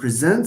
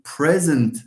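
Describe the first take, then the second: First: The stress is on the second syllable. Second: The stress is on the first syllable. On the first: It is a verb meaning to give or show. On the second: It is a noun meaning a gift.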